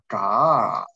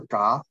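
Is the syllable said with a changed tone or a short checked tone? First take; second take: changed; checked. First: The syllable has a changed, fifth tone. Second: The syllable has a short, checked tone. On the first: The word stands at the end of the sentence. "位于句尾呢，就变成了嘎，变成第五调了" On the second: This is the word's basic tone. "本来应该读促调的字……本来是嘎"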